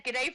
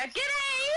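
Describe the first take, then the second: First: Said in the usual way. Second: Very high, bright call of G'day; over-the-top cheery Australian g'day; exuberant Aussie greeting. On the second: Pretend. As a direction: sing out a big Australian hello. Returns Australian viewer's greeting.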